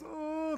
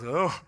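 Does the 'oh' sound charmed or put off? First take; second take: charmed; put off. First: It sounds charmed, like seeing something cute. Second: It sounds put off, like seeing something weird.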